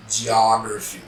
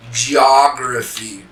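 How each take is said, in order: First: Said in the usual way. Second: Geography said slowly, ji-AH-gruh-fee, louder; slow model pronunciation. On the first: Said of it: "English model word, second take". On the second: Shown as a demonstration. Teacher modelling English Geography slowly for students to copy. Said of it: "English model word, first take".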